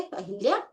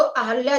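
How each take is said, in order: First: अहिल्या as "a-hil-yaa"; wrong form with i. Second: अहल्या as "a-hal-yaa"; correct form without i. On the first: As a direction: say अहिल्या with short i after h. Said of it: "नहीं जानेंगे". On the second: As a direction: say अहल्या with short a after h. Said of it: "अहल्या जानेंगे आज से". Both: Shown as a demonstration.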